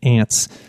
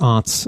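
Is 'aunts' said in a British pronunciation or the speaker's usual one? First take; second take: Usual; British. First: The word is said in the speaker's usual accent. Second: The word is said in a British accent.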